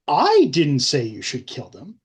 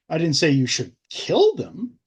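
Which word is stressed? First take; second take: I; kill. First: The stress falls on the word 'I'. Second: The stress falls on the word 'kill'.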